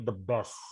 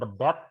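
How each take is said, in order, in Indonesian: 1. Bunyi s pada best terdengar jelas. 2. Bunyi s pada best dihilangkan, hanya tersisa t. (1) "tapi dibaca S" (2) "Bukan the best, nggak dibaca T"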